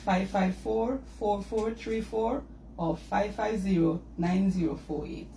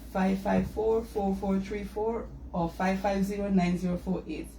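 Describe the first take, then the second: First: The number is said slowly. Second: The number is said fast.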